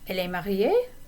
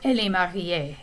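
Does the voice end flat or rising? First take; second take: rising; flat. First: The voice rises at the end. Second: The voice stays flat at the end. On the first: The speaker is unsure and is asking. "if your voice goes up at the end" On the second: The speaker is sure of it. "If you don't do the intonation, it sounds like something you're sure of"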